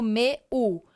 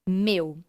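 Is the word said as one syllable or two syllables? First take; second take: two syllables; one syllable. First: The vowels are split into two syllables. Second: The vowels glide together in one syllable. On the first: The speaker calls it wrong. "eu não divido meu" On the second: The speaker calls it right. "e sim meu"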